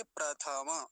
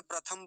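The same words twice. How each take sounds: First: प्रथमा as "pra-tha-ma"; प्रथमा in three even syllables; Sanskrit pronunciation. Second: प्रथम as "pra-tham"; प्रथम with no final vowel; Hindi pronunciation. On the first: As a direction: open the end of प्रथमा with a full vowel. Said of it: "यहाँ संस्कृत में क्या बोलेंगे". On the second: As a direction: close प्रथम on the m. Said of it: "Hindi में प्रथम बोलते हैं". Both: Shown as a demonstration.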